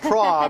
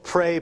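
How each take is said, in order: First: The vowel sounds like the one in 'law'. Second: The vowel sounds like the one in 'day'. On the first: "praw, P R A W" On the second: "pray, P R E Y"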